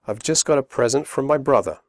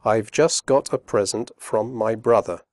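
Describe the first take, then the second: First: Fast connected speech; quick natural read; quickly. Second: Slow and careful; careful slow read; slowly. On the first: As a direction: run the words together. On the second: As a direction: say each word clearly. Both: Shown as a demonstration. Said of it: "first slowly and then quickly".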